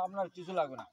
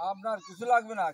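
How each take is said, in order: First: Said in the usual way. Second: লাগবে said louder and firmer on the repeat; emphatic repeat. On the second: Real, not acted. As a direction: hammer লাগবে home the second time. (জোর দিয়ে আবার বলা, লাগবে শব্দে ঝোঁক)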